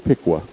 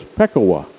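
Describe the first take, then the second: First: The name is said the local Ohio way. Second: The name is said in its original form. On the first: The speaker calls it wrong. "It's mispronounced in Ohio as Pikwa" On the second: The speaker calls it right. "the name given to that man who was the first storyteller was Pekawa"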